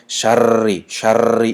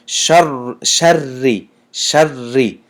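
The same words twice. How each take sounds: First: شری with the r rolled five or six times; over-trilled ra. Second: شری with a short, firm double r; clean doubled ra. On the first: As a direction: rattle the ra of شری far too long. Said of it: "این خیلی نادرست است". («شری» бо панҷ-шаш «р»-и пайдарпай) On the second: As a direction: hold the ra of شری without extra rattling. («شری» бо ду рои тоза) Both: Shown as a demonstration.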